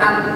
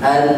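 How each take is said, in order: First: The final n bursts out strongly and abruptly. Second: The final n is held softly through the nose. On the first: The speaker calls it wrong. "tidak an, tidak ngabletrak betul" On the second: The speaker calls it right. "tapi ngenyap saja ya, seperti an"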